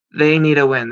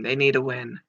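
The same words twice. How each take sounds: First: Louder emphatic repeat. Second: Said in the usual way. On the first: Real, not acted.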